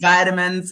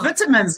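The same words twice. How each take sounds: First: It is said with an American pronunciation. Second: It is said with a British pronunciation. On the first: The speaker calls it wrong. "not vitamins" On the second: The speaker calls it right. "And vitamins"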